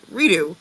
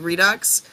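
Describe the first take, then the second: First: The word ends without any x sound. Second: The word ends with a clear x sound. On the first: This is the French-influenced New Orleans way. "we don't say the X" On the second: This is how it is said outside New Orleans. "when you say reality redux"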